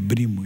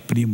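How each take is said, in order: First: The word starts with a b sound. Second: The word starts with a p sound. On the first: This is how an Arabic speaker says it. "é brimo, esse é meu brimo" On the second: This is the usual Portuguese pronunciation. "Ele não fala primo"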